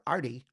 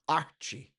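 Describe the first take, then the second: First: The middle consonant is a plain t sound. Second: The middle consonant is a ch sound.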